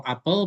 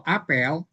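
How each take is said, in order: First: "apel" as the fruit, with a weak second vowel; "apel" with the e reduced to a schwa; schwa pronunciation. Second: "apel" as the assembly, a-PEL; "apel" with a full e in the last syllable; open-e pronunciation. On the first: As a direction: say "apel" as A-puhl. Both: Shown as a demonstration. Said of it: "intonasi penyebutannya beda".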